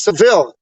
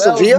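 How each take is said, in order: First: The double L is pronounced as an L sound. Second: The double L is pronounced as a Y sound. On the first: The speaker calls it wrong. "you got mad people saying Seville, and it's not Seville" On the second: The speaker calls it right. "two L's make the Y sound"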